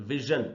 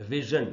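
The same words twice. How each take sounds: Both takes have the same delivery.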